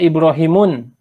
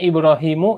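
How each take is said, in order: First: The name ends with an added n sound. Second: The name ends on a vowel, without n. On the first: The speaker calls it wrong. "Enggak ada Ibrahimun" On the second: The speaker calls it right. "tapi adanya Ibrahimu"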